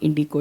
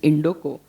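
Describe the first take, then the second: First: The second vowel sounds like 'ee'. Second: The second vowel sounds like 'oh'. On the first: This is the common mistaken form of the name. The speaker calls it wrong. "people will say Indico, it is not Indico" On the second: The name comes from Indo Continental. The speaker calls it right. "it's Indoco"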